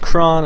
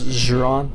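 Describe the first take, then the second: First: The name does not start with a Z sound. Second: The name starts with a Z sound. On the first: The speaker calls it right. "I know it's Kron" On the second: The speaker calls it wrong. "say the X like a xylophone"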